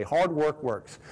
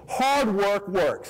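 First: Said in the usual way. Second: Hard work works said very slowly, each word weighted; slow emphatic motto. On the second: Shown as a demonstration. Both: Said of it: "that's my favorite thing to say".

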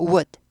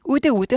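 First: "would" as a short "wud"; "would" with no vowel after the d; one-syllable would. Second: "would" as "u-deu", twice; spelled-out Koreanized "would"; wrong two-syllable would. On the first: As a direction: round into "would" and stop on the d. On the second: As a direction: add a vowel after the d in "would". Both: Shown as a demonstration. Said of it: "would, would 하지 않고 would".

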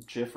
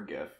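First: "gif" with a soft G, like "jif"; soft-G pronunciation. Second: "gif" with a hard G, as in "gift"; hard-G pronunciation. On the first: Host likening it to a known dispute, "gif" said with a soft G. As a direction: say "gif" starting with a J sound. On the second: Host giving the other side of the dispute, "gif" said with a hard G. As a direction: say "gif" starting like "give". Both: Shown as a demonstration. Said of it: "gif or gif".

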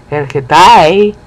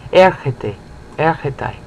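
First: Erketai with a loud, long final "tai"; slow Erketai, heavy on the ending; stress on last syllable. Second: Erkete, erketai, both stressed on the opening "er"; root-stressed erkete, erketai with unstressed endings; stress on first syllable. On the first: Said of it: "You don't stress the last syllable". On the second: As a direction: keep the weight on "er" in erkete, erketai, endings light. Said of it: "keep the same stress". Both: Shown as a demonstration.

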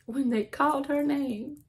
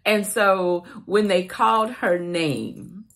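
First: Choked up, higher and softer, close to tears; voice breaking. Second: Said in the usual way. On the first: Real, not acted. Telling a stranger's kindness, voice breaking into tears. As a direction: let the voice crack on the repeat. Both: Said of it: "And I'm crying just like I am right now".

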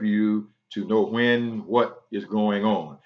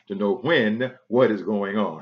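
First: "when" stressed, slower pace; slow down and land on "when". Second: "what" stressed in the repeat. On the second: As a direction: lean on "what" this time. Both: Shown as a demonstration.

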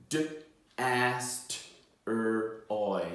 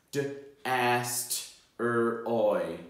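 The two takes are said the same way.

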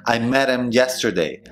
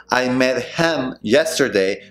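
First: "met him" as "medem"; dropped H. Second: Slow "met HIM", each word apart; full H. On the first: Teacher showing the reduction, linked pronunciation. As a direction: tap the T and lose the H in "him". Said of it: "no vas a pronunciar la H". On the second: Teacher showing what to avoid, slow full pronunciation. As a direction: sound the H in "him". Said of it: "En vez de decir". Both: Shown as a demonstration.

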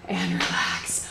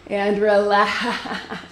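First: Breathy whisper to relax. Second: Slow laughing release. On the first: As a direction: whisper the cue softly. Coach cools class down. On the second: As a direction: laugh it out slowly. Coach ends set, laughing. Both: Real, not acted.

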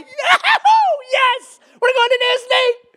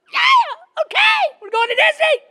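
First: High, loud, overjoyed cheer; excited whoop. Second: Mimicked toddlers shrieking along, very high; excited little kids. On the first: Acted. Dad pulling into the Disney gates, acting out excitement. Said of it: "get excited". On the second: Small sons cheering along without understanding, high mimicked shrieks. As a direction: squeal it loudly like small boys copying dad. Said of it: "they don't know what the heck is going on".

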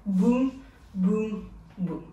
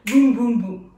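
First: BOUM, BOUM, BOUM slow and separated; marked-out beats. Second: BOUM BOUM BOUM in a quick, loud run; on the music's beat. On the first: Dance teacher marks each hit with the hand, slow spaced BOUM. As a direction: leave a clear gap after each boom. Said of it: "on va marquer avec notre main". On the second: Dance teacher gives the hits on the music, quick punchy BOUM. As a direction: punch out three booms back to back. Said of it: "Et là, sur la musique". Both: Shown as a demonstration.

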